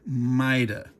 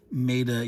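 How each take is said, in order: First: It is said with Italian pronunciation. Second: It is said with British pronunciation. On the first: The speaker calls it right. "you should say Maida" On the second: The speaker calls it wrong. "you shouldn't say Maida"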